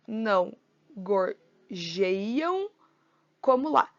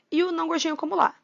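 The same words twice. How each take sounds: First: Slow, split into poetic syllables. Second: Said in the usual way. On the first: Shown as a demonstration. Teacher scanning the verse for students, slowly syllable by syllable. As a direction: count out each syllable with pauses.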